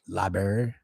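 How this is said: It is said with a country accent pronunciation. "I just say library. ... Because I'm a country motherfucker"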